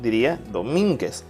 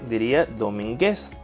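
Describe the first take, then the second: First: The stress is on the second syllable. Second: The stress is on the third syllable. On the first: "Si lo ponemos en min" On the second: "Y si la ponemos en gues"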